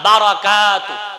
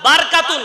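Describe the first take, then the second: First: A short a is heard after the r. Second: The r runs straight into the k. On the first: The speaker calls it right. "বার অর উপরে জবর" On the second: The speaker calls it wrong. "বারকাতু না"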